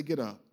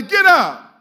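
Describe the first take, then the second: First: Low soft get up; quiet low call. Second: Loud high shout; shouted call. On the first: Preacher leading a hushed repeat of the call, soft and low. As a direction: drop it down, almost to yourself. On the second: Preacher leading the call to the congregation, shouted. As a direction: throw it at the crowd. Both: Shown as a demonstration. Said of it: "Somebody say".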